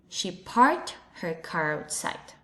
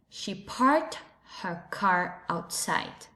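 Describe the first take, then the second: First: It is said in an American English accent. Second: It is said in an American English accent.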